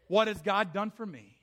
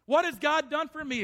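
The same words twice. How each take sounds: First: Said in the usual way. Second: Higher, louder bitter complaint; bitter outcry. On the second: Acted. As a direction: throw the question up at God. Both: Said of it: "repeated louder".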